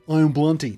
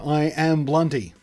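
First: It is said in a very casual way. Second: It is said in a relaxed, natural way.

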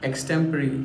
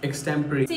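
First: The word ends with a 'ree' sound. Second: The same.

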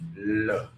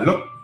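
First: The word is said calmly with a level pitch. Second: The word is clipped and the pitch jumps up. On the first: The speaker calls it right. "nhưng mà look" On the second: The speaker calls it wrong. "không là look"

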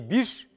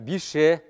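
First: The word ends in a consonant sound. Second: The word ends in a vowel sound. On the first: The speaker calls it wrong. "Не биш" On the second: The speaker calls it right. "а бише"

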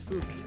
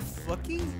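First: The name ends on the consonant, no vowel. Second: The name ends with an extra vowel sound.

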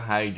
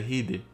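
First: The word is said with an English-style pronunciation. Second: The word is said with a Portuguese-style pronunciation. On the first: The speaker calls it wrong. "Eu pensei que era" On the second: The speaker calls it right. "Essa é a pronúncia em português"

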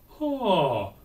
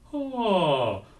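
First: The onset is balanced between breathy and hard. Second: The onset is balanced with added ringing resonance. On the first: "so I ask them to do the compromise" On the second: "add a little bit of resonance"

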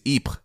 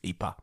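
First: It is said with a French pronunciation. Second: It is said with a Flemish pronunciation. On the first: "The French pronunciation is" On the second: "the Flemish name"

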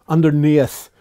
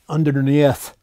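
No difference in how they are said.

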